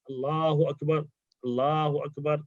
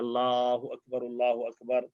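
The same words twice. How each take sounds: First: Each phrase is said separately with a pause. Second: Both phrases are said together in one breath.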